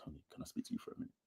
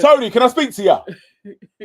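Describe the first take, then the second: First: Fast hushed whisper; discreet whisper. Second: Much higher, loud laughing yell; mock shout. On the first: Retold or imitated. Friend showing how to pull Tony aside, fast whisper. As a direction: slip the question in quietly. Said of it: "you'll be like". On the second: Friend mocking Harry shouting for Tony, loud laughing yell. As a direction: bellow it across the room. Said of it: "go in there and shout".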